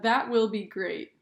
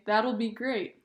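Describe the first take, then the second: First: The word will is said in full. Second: The word will is contracted onto that. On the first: "instead of saying" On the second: "you can say"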